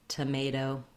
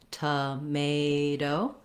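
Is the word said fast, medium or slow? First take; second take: medium; slow. First: The word is said at medium speed. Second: The word is said slowly.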